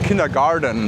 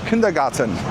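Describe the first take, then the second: First: It is said English-style, with a D sound. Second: It is said German-style, with a T sound. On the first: "the English people would say kindergarten with D" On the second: "we can also pronounce it German"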